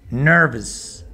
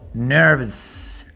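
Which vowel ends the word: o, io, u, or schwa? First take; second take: schwa; schwa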